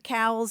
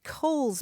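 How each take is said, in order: First: The vowel sounds like the one in 'cow'. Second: The vowel sounds like the one in 'coal'. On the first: This is how most local people say the name. "every time I switch to Cowles" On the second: This is the official pronunciation of the name. "properly that mountain is pronounced Coles Mountain"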